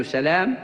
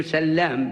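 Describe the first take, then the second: First: سلام with a short single l: sa-laam; single lam. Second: سلام with a long doubled l: sal-laam; doubled lam. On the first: Teacher recaps the Companion's name, سلام with one l. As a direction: say سلام lightly, no doubling of the l. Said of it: "وسلام بتشديد اللام وليس سلام". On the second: Teacher recaps Abu Ubayd's father's name, سلام with doubled l. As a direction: hold the l of سلام across both syllables. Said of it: "بتشديد اللام". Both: Shown as a demonstration.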